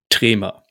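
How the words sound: The name is said with a German-style pronunciation.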